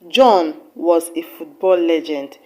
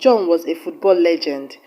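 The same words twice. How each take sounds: First: The word John carries the main stress. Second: The word legend carries the main stress. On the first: It corrects which person was the football legend. "with emphasis on the word John" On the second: It confirms that he was a football legend. "with emphasis on the word legend"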